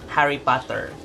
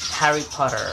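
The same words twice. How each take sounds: First: It is said in a Filipino accent. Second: It is said in an American accent.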